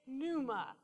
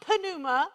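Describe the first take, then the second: First: "pneuma" as NOO-muh, slower and softer; silent P. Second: "pneuma" with the P voiced, puh-NOO-muh; sounded P. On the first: Correcting the congregation's Greek, "pneuma" with silent P. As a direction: drop the P, start "pneuma" on the N. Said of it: "It's pneuma". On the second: Showing learners the mistake, "pneuma" said puh-NOO-muh. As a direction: pop the P before the N in "pneuma". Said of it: "it's not pneuma". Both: Shown as a demonstration.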